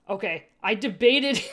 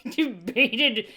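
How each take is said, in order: First: Said in the usual way. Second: Laughing through the word debated. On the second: Real, not acted. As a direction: say debated while laughing at the slip. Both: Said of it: "laughs debated".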